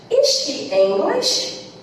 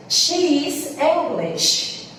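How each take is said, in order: First: "Is she English?" slow, rising at the end; question tune. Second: "She is English." slow, falling at the end; statement tune. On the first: Teacher contrasting statement and question for students, slow rising question. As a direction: lift the voice on "English" to ask. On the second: Teacher contrasting statement and question for students, slow falling statement. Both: Shown as a demonstration. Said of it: "exemplos pra vocês verem como isso ficaria".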